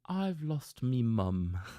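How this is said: It is spoken in a British accent.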